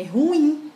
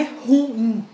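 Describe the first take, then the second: First: Corrected "ruim" as ru-IM, higher on IM; stress on second syllable. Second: Mistaken "ruim" as RU-im; stress on first syllable. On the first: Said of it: "tá no in". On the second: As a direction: lean on the "ru", letting "im" fall. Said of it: "A tonicidade não tá no ru". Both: Shown as a demonstration.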